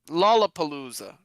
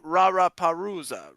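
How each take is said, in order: First: The word is said with clear L sounds. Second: The L sounds are replaced by R-like sounds. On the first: The speaker is a native speaker. The speaker calls it right. "it's Lollapalooza, right? Not Rara Parusa" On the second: The speaker is not a native speaker. The speaker calls it wrong. "they might say Rara Parusa"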